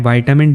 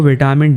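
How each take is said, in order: First: It is said the American way, 'vy-ta-min'. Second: It is said the British way, 'vit-a-min'. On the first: "मैं विटामिन D नहीं बोलूँगा" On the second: "इस video में मैं इस word को विटामिन D ही बोलने वाला हूँ"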